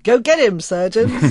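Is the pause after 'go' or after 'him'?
after him. There is a pause after him.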